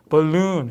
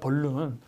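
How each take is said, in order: First: The word is said with a strong stressed syllable. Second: The word is said flat, without strong stress. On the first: The speaker calls it right. "벌룬이 아니라 뭐라고요?" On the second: The speaker calls it wrong. "우리는 그냥 뭐라고 해요?"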